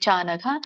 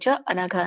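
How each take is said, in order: First: The two words are merged into one. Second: The two words are said separately. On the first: "ಕೂಡಿ ಹೇಳಿ" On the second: "ಇಲ್ಲಿ ಚಾನಗ ಮಾತ್ರ ಎರಡು ಪದ ಬರುತ್ತೆ"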